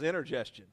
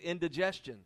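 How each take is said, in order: First: The word begins with the sounds 'in-ter'. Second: The word begins with the sounds 'in-di'. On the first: The speaker calls it wrong. "The way they said it, it was intergestion" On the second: The speaker calls it right. "I was 21 before I knew it was indigestion"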